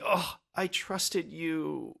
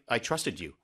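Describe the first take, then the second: First: It is said with hurt, emotional feeling. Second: It is said flatly, without feeling.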